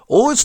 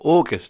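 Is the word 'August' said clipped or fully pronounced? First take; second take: clipped; full. First: The word is said quickly with sounds clipped. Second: The word is said carefully with every sound.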